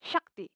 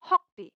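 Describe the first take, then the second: First: शक्ति with a clear sh sound and a short a; Hindi pronunciation. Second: हॉक्ति with an h sound and a rounded o, as in Assamese; Assamese pronunciation. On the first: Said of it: "अगर आप इसको हिंदी में बोलेंगे". (हिंदी उच्चारण में शक्ति, श की ध्वनि के साथ) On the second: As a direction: say हॉक्ति the Assamese way, higher and louder. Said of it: "एक शब्द ले लेते हैं असमीज में". (असमिया उच्चारण में हॉक्ति, ह और ओ की ध्वनि के साथ) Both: Shown as a demonstration.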